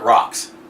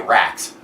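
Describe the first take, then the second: First: The vowel is open and back, like 'rock'. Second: The vowel is front, like 'rack'. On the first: Another person says it this way. "Beck pronounces it rocks" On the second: The speaker says it this way. "I say racks"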